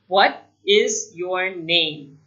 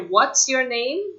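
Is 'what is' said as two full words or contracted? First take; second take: two words; contracted. First: Each of the four words is said in full. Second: 'What is' is contracted into one syllable. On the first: The speaker calls it wrong. "But nobody actually says it like that" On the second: The speaker calls it right. "You'll either hear what's your name"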